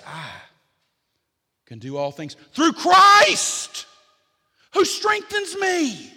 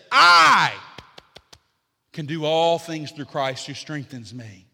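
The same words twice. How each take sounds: First: Small "I", then "through Christ who strengthens me" high, loud and stretched; stress on "Christ". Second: "I" shouted high and loud, the rest falling back to normal; stress on "I". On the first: Preacher showing how the verse should be said, weight thrown on "Christ". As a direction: build to a shouted CHRIST and keep "who strengthens me" soaring. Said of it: "we should come to that verse and we should say".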